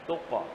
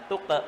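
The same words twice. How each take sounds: First: The qaf's bounce sounds close to o. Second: The qaf's bounce sounds close to a. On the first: The speaker calls it right. "pantulannya cenderung ke o" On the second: The speaker calls it wrong. "bukan tuqa"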